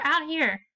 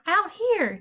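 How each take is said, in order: First: Said in the usual way. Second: High, urgent beckoning; eager call. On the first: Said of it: "exclamation point there". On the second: Shown as a demonstration. Teacher showing how Zane eagerly calls his mom outside. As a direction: pull her outside with excitement. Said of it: "trying to get her to still come".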